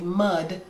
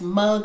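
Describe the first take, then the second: First: The word ends with a d sound. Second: The word ends with a g sound. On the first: The speaker calls it wrong. "I always say mud" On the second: The speaker calls it right. "it's mug with a G"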